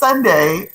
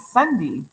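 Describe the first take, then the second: First: The final vowel sounds like 'ay'. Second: The final vowel sounds like 'ee'. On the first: The speaker calls it right. "makes the E sound like an A" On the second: The speaker calls it wrong. "people will call me Sunday"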